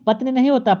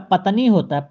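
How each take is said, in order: First: "पत्नी" as pat-ni, no vowel after t; wrong form patni. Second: "पत्नी" as pa-ta-nee, a vowel after t; corrected form patanee. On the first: Teacher rejecting the word, "पत्नी" as pat-ni. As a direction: run t into n in "पत्नी". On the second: Teacher correcting students, "पत्नी" as pa-ta-nee. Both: Shown as a demonstration.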